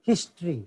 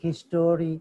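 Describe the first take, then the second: First: It is said with two syllables, vowel dropped. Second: It is said with three syllables, vowel kept. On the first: The speaker calls it right. "সঠিক হবে হিস্ট্রি" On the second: The speaker calls it wrong. "কেউ কেউ বলে Islamic হিস্টোরি, not হিস্টোরি"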